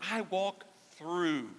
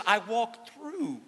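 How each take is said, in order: First: "I" of "I walk through" leaned on gently, slow and quieter; "I walk through" slow, hushed, "I" just a little stressed; soft stress on I. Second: "I" of "I walk through" hit high and strong, words drawn out slowly; "I walk through" with "I" pushed up, slow and emphatic; stress on I. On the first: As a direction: give "I" weight but keep it soft and slow. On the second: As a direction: lean hard on "I", slowly. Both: Shown as a demonstration. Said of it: "circle or underline that word".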